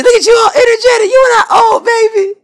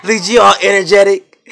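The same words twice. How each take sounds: First: Excited pet squeal. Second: Said in the usual way. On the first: Real, not acted. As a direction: squeal it way up high and loud to cheer the dog up. Cheering up moping pet.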